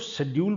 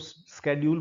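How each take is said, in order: First: It starts with a 'sh' sound, British style. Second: It starts with a 'sk' sound, American style.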